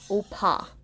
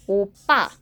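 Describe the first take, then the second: First: The middle consonant is a soft, plain p. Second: The middle consonant is a strong, tense p. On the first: The speaker calls it wrong. "the pronunciation is not opa" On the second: The speaker calls it right. "it's opa, like super strong accent on the B"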